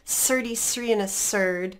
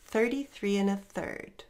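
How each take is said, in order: First: The 'th' sounds are replaced with a sharp 's' sound. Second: The 'th' sounds are made with the tongue between the teeth. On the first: The speaker calls it wrong. "students often use that S sound to replace it, which is not natural. It sounds really sharp, really foreign" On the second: The speaker calls it right. "One more time"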